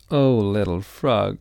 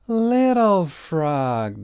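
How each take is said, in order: First: Louder, tender sigh of relief; a mother finding her child; mom's relief. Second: Higher, slow, long calling shout; family calling out. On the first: Mom greeting Little Frog, tender and relieved. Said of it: "said Little Frog's mom". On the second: Family calling from the helicopter, long calling shout. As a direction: call across the snow. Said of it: "they shouted". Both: A narrator's reading.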